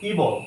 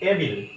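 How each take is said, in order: First: The word begins with a long 'ee' sound. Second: The word begins with a short 'eh' sound. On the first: The speaker calls it right. "এটা হচ্ছে actually ইবল" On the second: The speaker calls it wrong. "এগুলো সবগুলোই হচ্ছে কি ভুল উচ্চারণ"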